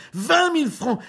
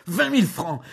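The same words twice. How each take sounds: First: Much higher, much louder repeat of vingt mille francs; shrieking outrage. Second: Indignant cry. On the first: Julien screaming the sum at Jeanne, scandalised. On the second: Julien repeating the sum. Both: Acted.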